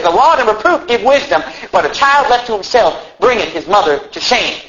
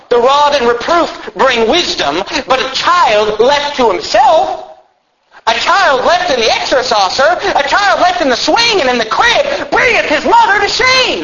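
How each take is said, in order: First: Said in the usual way. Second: High, drawn-out pulpit cry building to a shout; thundering preaching. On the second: Real, not acted. Preacher warning parents with a Bible verse, thundering preaching. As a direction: proclaim scripture at rising, soaring pitch.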